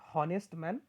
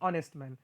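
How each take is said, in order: First: The word begins with an h sound. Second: The word begins with a vowel sound. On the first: The speaker calls it wrong. "It is not हॉनेस्ट man, don't pronounce it as a हॉनेस्ट" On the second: The speaker calls it right. "उसका उच्चार ओ से start होता है"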